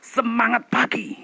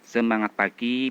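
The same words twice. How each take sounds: First: It is said loudly with lively energy. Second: It is said flatly with little energy. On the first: The speaker calls it right. "ya akan berbeda" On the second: The speaker calls it wrong. "presentasi datar-datar aja. Contohnya begini"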